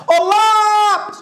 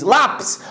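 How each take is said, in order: First: High, stretched call on lápis; long drawn-out call. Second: Said in the usual way. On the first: Shown as a demonstration. Teacher hollering an example word to the class, stretched call. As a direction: holler lápis, holding the first vowel.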